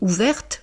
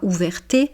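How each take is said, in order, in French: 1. Le e final est muet. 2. Le e final se prononce é. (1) "Je dis ouverte" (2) "je ne dis pas ouverté"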